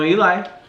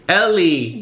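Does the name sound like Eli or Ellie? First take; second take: Eli; Ellie. First: The name sounds like Eli, rhyming with 'why'. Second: The name sounds like Ellie, a girl's name. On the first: The speaker calls it right. "I don't know Ellie, I know Eli" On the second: The speaker calls it wrong. "people still say it wrong sometimes because they call me Ellie"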